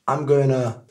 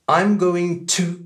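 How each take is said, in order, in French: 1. Il se réduit à 'gonna' sans 'to' séparé. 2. Il se prononce en entier avec un 'to' séparé.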